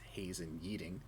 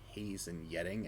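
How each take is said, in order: First: The second name has a long 'ee' vowel. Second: The second name has a short 'e' vowel. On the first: The speaker calls it wrong. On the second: The speaker calls it right.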